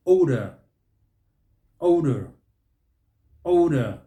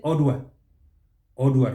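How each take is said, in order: First: "Odor" as OH-duh, strong first syllable; correct odor. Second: "Odor" as OD-wa; wrong odor. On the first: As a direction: hit a long O in "Odor", louder. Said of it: "Here, what do we say?". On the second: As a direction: put a w after the d in "Odor". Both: Shown as a demonstration.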